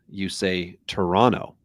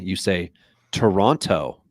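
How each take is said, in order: First: The word is said loosely, not as spelled. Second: The word is said fully, as spelled. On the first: This is how people in Canada say it. "If you are in Canada" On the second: This is how people outside Canada say it. "you pronounce it phonetically"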